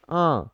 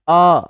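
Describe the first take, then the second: First: आ with chandrabindu, voiced through both mouth and nose; nasal aa. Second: आ said plainly through the mouth only, no nasal sound; open-mouthed आ with no nasal air; oral aa. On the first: Teacher shows students the nasalised आ with chandrabindu. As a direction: let the आ resonate in the nose. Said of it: "इसमें मेरी थोड़ी सी voice नाक की भी सुनाई देगी". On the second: Teacher shows students the oral आ, said clearly and loudly. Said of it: "तो ये मेरे मुख से निकला आ". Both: Shown as a demonstration.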